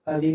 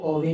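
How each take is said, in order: First: The first vowel sounds like 'a'. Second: The first vowel sounds like 'o'. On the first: The speaker calls it right. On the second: The speaker calls it wrong.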